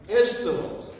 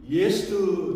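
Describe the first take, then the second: First: The name begins with a plain 'e' vowel. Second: The name begins with a 'ye' glide. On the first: The speaker calls it right. "정확하게 잘 들리실지는 모르겠지만" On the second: The speaker calls it wrong. "저는 예스트 자꾸 그렇게 발음이 되더라고요"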